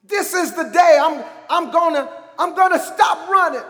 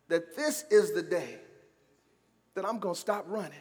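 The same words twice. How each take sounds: First: High, emphatic preaching cry; forceful declaration. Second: Hushed, low declaration; quiet resolve. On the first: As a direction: proclaim it loudly, repeating for force. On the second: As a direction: say it softly, with pauses. Preacher's quiet declaration, then repeated loud. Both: Shown as a demonstration.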